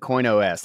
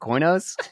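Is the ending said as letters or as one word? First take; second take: letters; one word. First: The ending is spoken as the letters O-S. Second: The name is spoken as one blended word.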